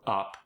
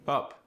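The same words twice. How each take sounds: First: Said in the usual way. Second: South African "up", higher with a rounded vowel; South African accent. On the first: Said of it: "The short U sound". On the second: Shown as a demonstration. Teaching the South African short U, accented "up". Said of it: "oo sound".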